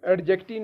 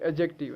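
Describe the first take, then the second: First: एडजेक्टिव with a hard, audible 'd'; the wrong 'ad-jective', d sounded before the j; mispronunciation. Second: एडजेक्टिव with the 'd' silent, 'ajective'; softer corrected एडजेक्टिव, straight into the j; correct pronunciation. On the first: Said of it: "एडजेक्टिव नहीं है". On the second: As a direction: drop the d in एडजेक्टिव. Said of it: "ये एडजेक्टिव है". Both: Shown as a demonstration.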